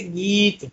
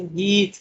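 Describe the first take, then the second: First: Said in the usual way. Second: गीत with its "ee" stretched out slowly; long drawn vowel. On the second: Shown as a demonstration. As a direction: draw out the "ee" in गीत. (गीत की ई को धीरे-धीरे खींचकर) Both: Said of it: "या ऐसे गीत".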